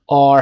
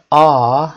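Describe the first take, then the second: First: آر with the final R sounded; American R. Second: آ as a long "ah", no R; British R. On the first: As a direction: finish آر on an American R. (تلفظ امریکن «آر» با صدای ر) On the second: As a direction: leave the R off آ. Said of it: "صدای ر در انتها نمیشنوید". (تلفظ بریتیش «آ» بدون ر) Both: Shown as a demonstration.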